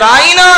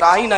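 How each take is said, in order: First: The word is said drawn out, stretched. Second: The word is said short, without stretching. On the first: A mocking insult calling him a shepherd. The speaker calls it wrong. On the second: A respectful plea to be treated with care. The speaker calls it right.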